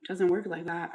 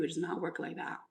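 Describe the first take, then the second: First: Said in the usual way. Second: Softer, "does not" drawn apart with "not" hit; stress on NOT. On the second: Shown as a demonstration. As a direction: lean on "not" to correct them.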